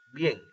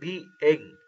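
First: The vowels are joined into one syllable. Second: The vowels are split into two syllables. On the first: The speaker calls it right. "sino que decimos bien" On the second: The speaker calls it wrong. "no decimos bien"

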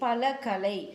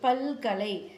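First: The final a of pala is kept before kalai. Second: The final a of pala is dropped, giving palkalai. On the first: "அகரம் கெடாமல் புணர்ந்ததற்கு எடுத்துக்காட்டு" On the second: "அகரம் கெட்டு புணர்ந்ததற்கு எடுத்துக்காட்டு"

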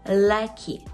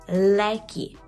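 No difference in how they are said.

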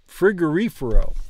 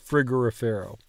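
First: The stress falls on the syllable 'ri'. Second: The stress does not fall on 'ri'. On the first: The speaker calls it right. "emphasizing the reefer part of frigorifero" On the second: The speaker calls it wrong. "I've been wanting to say it frigorifero"

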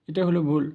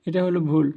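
No difference in how they are said.

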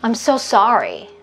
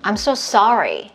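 First: It is said relaxed, carried easily on the breath. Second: The same.

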